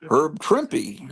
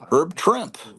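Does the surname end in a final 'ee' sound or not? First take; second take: yes; no. First: The surname has two syllables, ending in 'ee'. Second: The surname is one syllable, ending in 'p'. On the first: The speaker calls it right. "but it's Herb Trimpy" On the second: The speaker calls it wrong. "I always thought it was"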